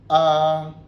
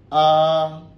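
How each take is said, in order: First: It is said with the first tone. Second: It is said with the first tone.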